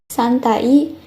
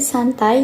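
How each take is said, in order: First: The final vowels are said as separate sounds. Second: The final vowels blend into one gliding sound. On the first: The speaker calls it wrong. "tidak dibaca dengan bunyi aslinya, seperti" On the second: The speaker calls it right. "kata ai yang dibaca dengan bunyi y"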